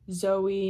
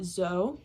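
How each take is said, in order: First: The two vowels are said as separate sounds. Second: The two vowels merge into one sound. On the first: The speaker calls it right. "two separate vowel sounds there" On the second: The speaker calls it wrong.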